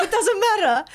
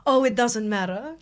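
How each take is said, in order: First: High, laughing mock dismissal; amused repeat. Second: Said in the usual way. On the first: Woman repeating the suitor's reply to her co-host, laughing. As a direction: repeat his brush-off pitched up, through laughter.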